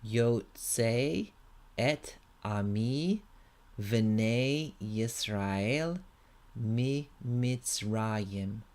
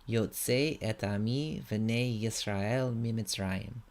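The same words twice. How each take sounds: First: It is read at a slower pace. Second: It is read at a faster pace.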